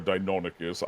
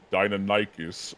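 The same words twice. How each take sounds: First: Deinonychus said dye-NON-ih-kus; speaker's own pronunciation. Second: Deinonychus said dye-nuh-NYE-kus; alternative pronunciation. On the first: Offering the other name form, Deinonychus as dye-NON-ih-kus. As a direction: stress the NON in Deinonychus, short endings. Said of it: "I say Deinonychus". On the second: Naming the raptor species for the co-host, Deinonychus as dye-nuh-NYE-kus. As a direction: stress the NYE in Deinonychus, rhyming with "eye". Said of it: "some people like to say Deinonychus". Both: Shown as a demonstration.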